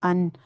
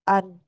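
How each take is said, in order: First: The sound flows freely through the nose. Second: The sound is blocked with the nose pinched.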